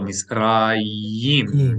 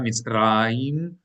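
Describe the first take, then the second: First: The final syllable starts with a y consonant. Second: The final syllable has no y consonant. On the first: The speaker calls it right. "Make sure we pronounce the yud as a y. but Misrayim. It's a consonant" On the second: The speaker calls it wrong. "So not Mitzrayim"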